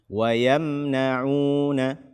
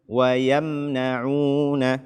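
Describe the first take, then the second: The two takes are said the same way.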